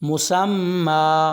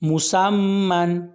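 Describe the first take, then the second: First: The word ends with a long drawn-out a. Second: The word ends with a short a and n.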